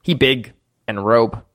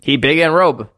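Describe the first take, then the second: First: Low, halting broken speech; low-voiced simple little creature. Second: "He big and robe" pushed out more firmly; firm, insistent "robe"; emphatic repeat. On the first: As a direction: say it low, word by word. Game master voices Grook's broken speech. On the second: Acted. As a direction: repeat "He big and robe" clearly for someone who misheard. Repeats after being misheard.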